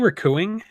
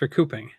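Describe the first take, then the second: First: The word is said without a p sound. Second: The word is said with a p sound. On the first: The speaker calls it wrong. "Did you say recooing?" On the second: The speaker calls it right. "It's recouping"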